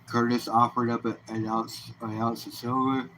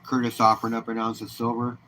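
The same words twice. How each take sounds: First: Words stretched through a yawn. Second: Said in the usual way. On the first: Real, not acted. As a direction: talk mid-yawn. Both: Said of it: "Excuse me for the yawn".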